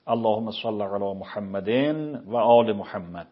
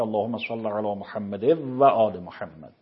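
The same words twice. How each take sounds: First: Slow اللهم صل علی محمد و آل محمد with each word kept apart; without assimilation. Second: اللهم صل علی محمد و آل محمد, the words run together; with assimilation. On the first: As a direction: recite it slowly, no merging. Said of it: "از نظر تجویدی نباید این کار بکنه". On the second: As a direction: merge the sounds as tajwid requires. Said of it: "ادغام کنه". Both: Shown as a demonstration.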